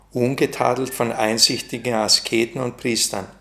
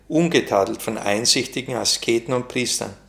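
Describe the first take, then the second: No difference in how they are said.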